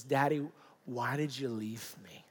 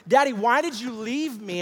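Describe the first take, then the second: First: Hushed, low imitation of a hurt little boy; tearful, fearful child. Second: High, loud imitation of an upset boy; distressed child's plea. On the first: Frightened son asking his father, in a tearful hush. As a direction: barely get it out, softly, as a frightened son. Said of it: "through his tears and his fear". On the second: Son confronting his father, in loud desperate pleading. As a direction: cry out the question, pleading as a child. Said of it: "he begins to express these emotions".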